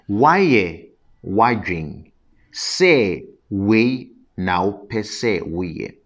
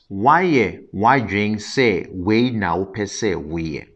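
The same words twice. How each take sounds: First: The phrase is spoken slowly and deliberately. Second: The phrase is spoken at a normal pace.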